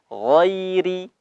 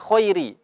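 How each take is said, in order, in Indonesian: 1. Kata ini diawali dengan bunyi gh yang bersuara dan berkumur. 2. Kata ini diawali dengan bunyi kh yang tidak bersuara dan serak. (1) "huruf ghain ... di ujung tenggorokan" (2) "ada yang baca khairi ... diganti dengan huruf kha"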